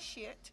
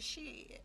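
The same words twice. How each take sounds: First: The word is pronounced carefully and precisely. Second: The word is pronounced in a casual street style. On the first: This is how a well-spoken person says it. The speaker calls it wrong. "it's not shit" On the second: This is how the cool crowd says it. The speaker calls it right. "you got to talk like me"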